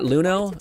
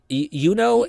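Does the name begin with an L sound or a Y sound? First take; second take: L sound; Y sound. First: The name begins with an L sound. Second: The name begins with a Y sound. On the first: The speaker calls it wrong. "I will probably continue to say it wrong" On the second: The speaker calls it right. "Yuno and not Luno"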